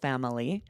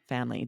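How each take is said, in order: First: The word is said with three syllables. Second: The word is said with two syllables. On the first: "pronounce this three syllables" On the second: "drop that third syllable"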